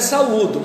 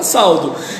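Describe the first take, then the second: First: The a and u are said as separate syllables. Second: The a and u merge into one syllable. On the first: The speaker calls it right. "o certo é saúdo" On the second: The speaker calls it wrong. "mas a pessoa fala saldo"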